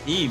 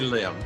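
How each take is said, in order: First: The name begins with a vowel sound. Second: The name begins with an L sound. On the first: This is the Korean form of the name. "I'm used to saying Im in Korean" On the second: This is the Americanized form of the name. "that's an Americanized pronunciation"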